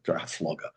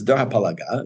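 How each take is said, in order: First: The second word is shortened with an F sound. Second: The second word is said in full with a P. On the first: This is the habitual form from childhood. The speaker calls it wrong. "I grew up heard calling, calling it Dor HaFloga" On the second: This is the correct traditional form. The speaker calls it right. "is the really right way to say it"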